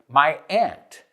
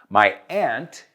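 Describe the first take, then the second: First: Aunt sounds like ant, northeastern US accent. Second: The same.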